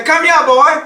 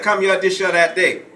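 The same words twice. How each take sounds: First: Put-on loud, high Gullah Geechee call of "Come here, boy", stress on "here". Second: Said in the usual way. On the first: Shown as a demonstration. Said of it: "They would say". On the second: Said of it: "We think, say things like".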